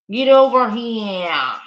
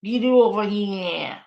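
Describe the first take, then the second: First: Loud mock Boston cop; mock Boston accent, loud. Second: Lighter mock Boston repeat; a light Boston accent, laughing at it. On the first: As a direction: belt "Get over here." in a thick Boston accent, like a Boston cop. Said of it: "that is the most Boston thing". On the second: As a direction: toss off "Get over here." in a lighter Boston accent. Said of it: "It's Boston".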